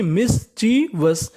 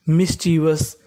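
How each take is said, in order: First: mischievous slowly as mis-chee-vas; syllable by syllable. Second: Said in the usual way. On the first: Shown as a demonstration. Teacher repeating the word for learners, syllable by syllable. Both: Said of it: "meaning क्या बन गई".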